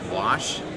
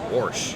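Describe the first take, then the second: First: It is said in a standard way. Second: It is said in a Midwestern way.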